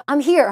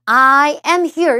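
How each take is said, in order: First: "I'm here" run together fast as one beat; rapid contracted "I'm here"; quick contraction. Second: "I am here" with every word said separately; careful uncontracted "I am here"; full form. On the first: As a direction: clip it to a quick "I'm here" like native speech. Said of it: "빠르게 지나갔기 때문에". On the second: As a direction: spell out "I am here" slowly and fully, no contraction. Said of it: "이렇게 안 해주고요". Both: Shown as a demonstration.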